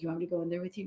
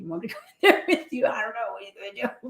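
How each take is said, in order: First: Softer, unsure colleague's question; a hushed doubtful ask; quiet incredulous quote. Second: Fast, laughing nervous colleague; laughing quote. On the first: Nurse asked to join a tense room, quiet doubt. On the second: Nurse hesitating to join a tense room, laughing. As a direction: rush it out through laughter. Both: Retold or imitated. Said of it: "some of them just be like".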